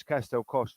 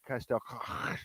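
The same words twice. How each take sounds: First: Said in the usual way. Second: Castel Coch slowed, with a guttural ch ending Coch; Welsh pronunciation. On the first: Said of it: "it's Castel Coch to me and you". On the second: Shown as a demonstration. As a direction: say Castel Coch the Welsh way, throat-scraping final ch. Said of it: "but to them, they say".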